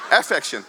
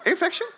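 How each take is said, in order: First: Amused affection; laughing correction. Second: Infection said much higher, rising, as a joke; playful pun. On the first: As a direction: laugh and set affection straight. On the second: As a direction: toss out infection teasingly. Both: Shown as a demonstration.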